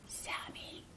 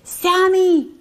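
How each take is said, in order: First: It is said in a quiet whisper. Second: It is said louder still.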